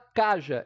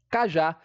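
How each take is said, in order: First: The stress is on the first syllable. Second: The stress is on the last syllable. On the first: The speaker calls it wrong. "A gente não fala caja" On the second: The speaker calls it right. "e sim cajá. Já é a sílaba tônica"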